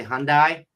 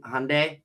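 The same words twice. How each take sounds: First: Hyundai said HUN-die; mispronounced Hyundai. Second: Hyundai said HUN-day; right Hyundai pronunciation. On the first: Host recalls his old mistake, wrong HUN-die. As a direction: end Hyundai like the word die. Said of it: "I would say Hyundai". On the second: Host recalls booking car dealerships, correct HUN-day. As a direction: say Hyundai to rhyme with Sunday. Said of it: "didn't know how to pronounce". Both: Shown as a demonstration.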